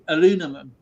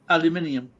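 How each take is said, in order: First: It is said with four syllables, ending in -num. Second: It is said with five syllables, ending in -nium. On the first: "the correct way of saying it is actually the American way" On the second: "the English way as aluminium"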